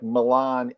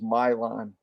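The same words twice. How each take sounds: First: Milan is pronounced as the Italian city's name. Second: Milan is pronounced the American local way. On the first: It names the Italian city. "Just like Milan, Italy" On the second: It names the American town. "the American uh, pronunciation is Milan"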